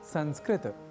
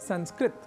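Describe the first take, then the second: First: The word ends with a short a vowel. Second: The word ends in a bare t consonant. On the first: The speaker calls it right. "त अर्थात तकार के बाद अ या आकार के प्रयोग के साथ उच्चारण" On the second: The speaker calls it wrong. "संस्कृत न कहकर"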